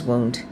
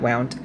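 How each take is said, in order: First: The vowel sounds like 'oo' in moon. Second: The vowel sounds like 'ow' in cow. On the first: It means an injury. The speaker calls it right. "that word is wound" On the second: It means something was wrapped or turned. The speaker calls it wrong. "not wound"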